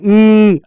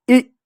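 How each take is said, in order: First: ई held long, "eeee"; drawn-out ई as the mistake; wrong long version. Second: ई cut short, a snappy "i"; brief ई with no lengthening; quick short sound. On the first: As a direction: stretch ई out and let it fall. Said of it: "ऐसा नहीं ई". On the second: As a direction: say ई in one quick burst. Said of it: "फटाक से बोल ई". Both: Shown as a demonstration.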